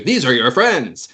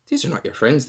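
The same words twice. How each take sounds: First: Slow, higher, stretching "are your friends"; drawn-out, raised-pitch conviction on "are your friends"; emphatic correction. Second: "not" stressed in a higher insistent voice; raised pitch, pressing the denial "not"; inner voice persuading. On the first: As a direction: affirm "friends" slowly and firmly. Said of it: "but you know". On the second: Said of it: "you hear your own voice". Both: Acted.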